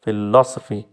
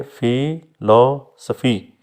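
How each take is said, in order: First: Said in the usual way. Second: philosophy slowly split as fi, lo, sofi; syllable by syllable. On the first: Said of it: "आप देखें जो philosophy word है". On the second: Shown as a demonstration. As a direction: pause between the three parts of philosophy. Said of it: "तीन है तो जो middle है". (Philosophy तीन हिस्सों में, धीरे)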